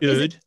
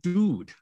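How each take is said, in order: First: The vowel is fronted and exaggerated. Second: The vowel is a plain back oo sound.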